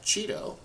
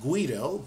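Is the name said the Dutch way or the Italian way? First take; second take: Dutch; Italian. First: The name is said with a Dutch pronunciation. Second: The name is said as it looks when read. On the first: The speaker calls it right. "in Dutch you would pronounce that Cheeto" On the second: The speaker calls it wrong. "I know it looks like Guido"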